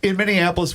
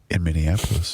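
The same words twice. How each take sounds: First: It is read fast and quietly. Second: It is read slowly and louder.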